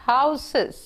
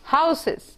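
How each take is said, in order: Both takes have the same delivery.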